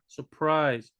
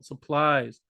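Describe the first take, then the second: First: The word is said with an R sound. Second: The word is said with an L sound. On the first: The speaker calls it right. "but it's actually an R" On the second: The speaker calls it wrong. "they're hearing supplies with an L"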